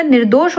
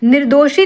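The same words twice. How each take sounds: First: Said in the usual way. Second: निर्दोषी ending in long ee; wrong form. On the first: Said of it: "निर्दोष होता". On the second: Shown as a demonstration. Teacher rejects a misspelling, निर्दोषी ending in ee. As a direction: add -ee to end निर्दोषी. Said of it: "निर्दोषी नहीं होता".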